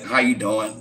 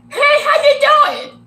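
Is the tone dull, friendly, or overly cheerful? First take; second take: dull; overly cheerful. First: It sounds dull, with an attitude. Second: It sounds overly cheerful, with a big smile.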